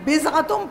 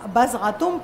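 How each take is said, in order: First: The first vowel is a short i. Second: The first vowel is a short a. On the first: "اگر بزغتم پڑھیں زیر کے ساتھ تو بھی صحیح ہے" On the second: "بزغتم پڑھیں زبر کے ساتھ تو بھی صحیح ہے"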